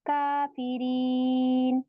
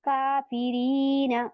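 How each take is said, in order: First: The word ends on a consonant, no vowel. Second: The word ends with a short final vowel. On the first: The reader stops at the end of the verse. "हम इसको सुकून बना देते हैं" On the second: The reading carries on without stopping. "यहाँ पे लिखा है काफिरीना"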